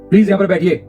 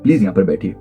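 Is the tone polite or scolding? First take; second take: scolding; polite. First: It is said in a harsh, scolding tone. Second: It is said in a calm, polite tone. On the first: The listener is being told off. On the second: It is a courteous request to sit.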